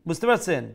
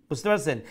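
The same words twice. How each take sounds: Both takes have the same delivery.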